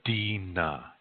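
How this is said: The second consonant is an N sound. This is the Nakota dialect form. "Nakota people say dina"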